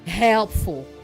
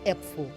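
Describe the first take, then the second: First: The h at the start is strong. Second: The h at the start is weak. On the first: The speaker calls it right. "Try to pronounce the h harder" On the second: The speaker calls it wrong. "not helpful"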